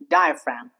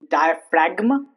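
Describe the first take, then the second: First: The G is silent. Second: The G is pronounced. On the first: The speaker calls it right. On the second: The speaker calls it wrong.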